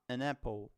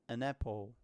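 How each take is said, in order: First: The n runs straight into the next word. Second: The same.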